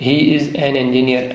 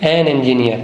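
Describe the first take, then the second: First: He is an engineer said very slowly; slow dictation. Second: An stressed before engineer. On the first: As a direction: read it slowly like a teacher at the board. (آہستہ آہستہ لکھوانا) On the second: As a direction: lean on the word an. (an پر زور) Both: Shown as a demonstration. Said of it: "engineer, الف کی".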